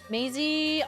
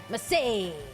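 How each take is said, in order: First: The first vowel is long, as in day. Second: The first vowel is short, as in cat. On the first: This is how others say the name. "Horse Mountain Phil pronounced it Maisie" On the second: This is the speaker's own pronunciation of the name. "I go for the A sound"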